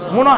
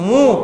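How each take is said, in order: First: The n is pronounced as a full consonant. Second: The n only nasalizes the vowel. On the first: The speaker calls it wrong. "যদি নুনটা উচ্চারণ তাহলে মুন এরকম বলতাম" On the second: The speaker calls it right. "এখন কি বলতেছি মু"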